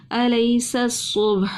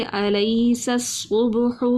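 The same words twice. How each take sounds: First: الیس الصبح recited slowly again, thin sin and heavy sad; Quranic recitation demo. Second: Slow recitation of الیس الصبح, the sin thin and the sad heavy; Quranic recitation demo. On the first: Tajweed teacher repeats the verse for students, slow clear recitation. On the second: Tajweed teacher shows students thin sin against heavy sad, slowly recited. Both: Shown as a demonstration. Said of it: "سین کو ہم نے باریک پڑھا اور صاد کو موٹا پڑھا".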